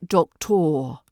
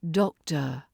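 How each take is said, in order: First: The ending is a strong hard R sound. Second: The ending is a relaxed uh sound. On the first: The speaker calls it wrong. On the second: The speaker calls it right. "Again, it's the uh"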